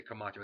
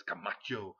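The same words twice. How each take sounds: First: Said in the usual way. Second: CAMACHO hit on the middle syllable, final O held; emphatic drawn-out Camacho. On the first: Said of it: "you can't say Camacho". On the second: Shown as a demonstration. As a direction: punch and stretch "Camacho". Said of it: "You gotta say it like".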